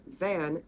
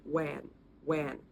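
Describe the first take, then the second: First: Said in the usual way. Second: 'wan' with a w in place of v; Thai pronunciation. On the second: Shown as a demonstration. Showing learners how Thai people say van, w for v. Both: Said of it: "when Thai people say the word van".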